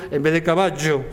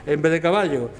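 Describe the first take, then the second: No difference in how they are said.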